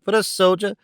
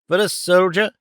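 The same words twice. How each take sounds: First: Pitched higher, lingering on the words; hammed-up offense at the idea; indignant echo. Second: Lightly voiced startled echo, pitch up; husband gasping at his wife's taunt; startled cry. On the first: Husband echoing himself in mock horror. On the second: Husband repeating the wife's taunt, mildly startled. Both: A narrator's reading. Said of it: "cried the man".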